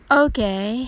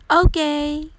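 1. 平坦で、気のない言い方です。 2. 明るく、熱のこもった言い方です。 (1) "彼はまあまあよという意味になります" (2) "ポジティブな意味で、バッチリです、という気持ちを込めて"

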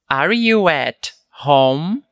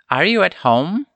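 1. É dita devagar, com palavras claras e separadas. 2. É dita rápido, com as palavras juntas. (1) "Falei um pouco mais pausadamente para entendermos" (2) "Naturalmente ficaria assim, ó"

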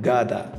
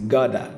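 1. Ela é dita com pronúncia do inglês americano. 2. Ela é dita com pronúncia do inglês americano.

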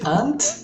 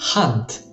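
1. La parola inizia senza suono h. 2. La parola inizia con il suono h. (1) "non si dice hunt perché stai parlando di una formica" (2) "ma si dice hunt"

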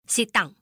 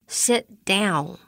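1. 语气生硬、直接。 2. 语气温和、有礼貌。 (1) "这个不太好" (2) "我们可以好好的说它"

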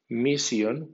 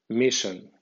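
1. Se lee con sonidos de letras españolas. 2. Se lee con sonidos y acento ingleses. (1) "como si fuera española" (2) "en pronunciación inglesa"

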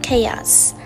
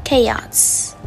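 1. Từ này bắt đầu bằng âm 'k'. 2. Từ này bắt đầu bằng âm 'k'.

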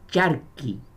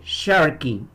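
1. Se lee con sonidos españoles, como 'charco'. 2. Se lee con sonidos ingleses, que empiezan con 'sh'. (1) "No es Sharky, como decir que un charco pequeño, no" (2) "Es Sharky"

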